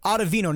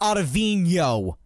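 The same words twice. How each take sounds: First: The n is a plain n sound. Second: The n is a ny sound. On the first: The speaker calls it right. "Ottavino, not" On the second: The speaker calls it wrong. "No squiggly line over the N"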